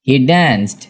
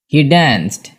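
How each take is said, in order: Both takes have the same delivery.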